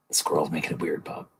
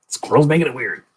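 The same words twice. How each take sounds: First: Soft, muted awkward deflection; low-key, softly blaming the squirrel; quiet aside. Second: Raised pitch, mock protest; high-pitched defensive excuse; higher insistence. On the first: Acted. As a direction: say it under your breath. Acted awkward exchange with Bob Ross. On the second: Repeats the excuse, now insisting.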